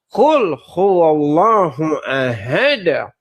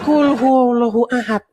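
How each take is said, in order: First: The final consonant of 'ahad' has an echoing bounce. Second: The final consonant of 'ahad' is plain, without bounce. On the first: The speaker calls it right. "tapi ... Harus ada, harus ada, ada gitu" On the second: The speaker calls it wrong.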